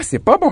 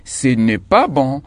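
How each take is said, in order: First: Much higher, sing-song «c'est pas bon»; mocking the mistake. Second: Slow and even, with «n'est» said fully; correct form, careful. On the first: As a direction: squeak out «c'est pas bon» as the silly wrong version. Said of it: "on dit pas". (forme fautive, voix très aiguë et moqueuse) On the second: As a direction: spell out «ce n'est pas bon» slowly for the class. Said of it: "mais on dit". (lentement, en prononçant bien «n'est») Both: Shown as a demonstration.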